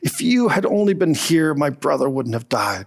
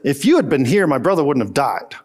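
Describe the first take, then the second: First: It is said softly, with grief and tenderness. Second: It is said flatly, as a plain statement.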